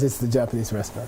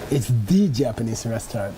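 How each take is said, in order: First: The phrase is said plainly without special emphasis. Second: The phrase is said with special emphasis. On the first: It is simply the Japanese restaurant. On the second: It is the best Japanese restaurant around.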